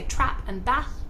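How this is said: It is spoken in a Northern English accent. "People from the north of England will say"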